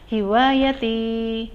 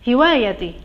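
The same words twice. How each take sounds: First: The final vowel is clear and lengthened. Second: The final vowel is short and unclear. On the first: The speaker calls it right. "ya-nya itu harus jelas, agak panjang" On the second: The speaker calls it wrong.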